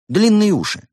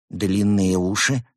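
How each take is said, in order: First: High, loud, emphatic proposal; enthusiastic. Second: Slow, doubtful question; frowning doubt. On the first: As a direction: push the idea proudly. Rabbit proudly proposes long ears. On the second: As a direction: ask it slowly, frowning. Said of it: "нахмурился он". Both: A narrator's reading.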